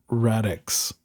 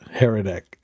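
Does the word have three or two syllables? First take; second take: two; three. First: It is said with two syllables, starting with r. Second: It is said with three syllables, starting with h. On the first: The speaker calls it right. "it's Radix instead of Heretic" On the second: The speaker calls it wrong. "I've been pronouncing it"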